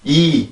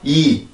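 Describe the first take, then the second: Both takes have the same delivery.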